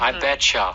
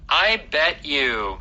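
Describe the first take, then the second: First: The words bet and you blend into betcha. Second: The words bet and you are said separately.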